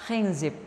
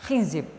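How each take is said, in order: No difference in how they are said.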